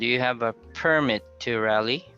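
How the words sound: The voice rises at the end. The speaker calls it right. "it's a rising intonation"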